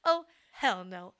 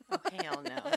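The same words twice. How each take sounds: First: Slow, drawn-out sassy "hell no"; sassy devil. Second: High squeaky sassy "oh, hell no"; sassy devil. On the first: Friend repeats the devil's refusal, slow and sassy. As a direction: lean back and refuse, slowly. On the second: Friend echoes the devil quote, squeaky sassy. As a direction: toss it off like a diva devil. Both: Retold or imitated. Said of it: "that's a devil's quote".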